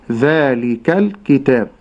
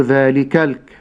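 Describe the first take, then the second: First: ذلك الكتاب with the lam kept silent; right silent lam. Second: ذلك الك- with a voweled lam, the wrong way; wrong moving lam. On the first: Sheikh shows students the right way, silent lam. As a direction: hold the lam of الكتاب still. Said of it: "أقول". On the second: Sheikh shows students the wrong way, vowel on the lam. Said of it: "لا أقول". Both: Shown as a demonstration.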